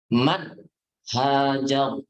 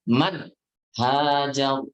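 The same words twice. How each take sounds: The two takes are said the same way.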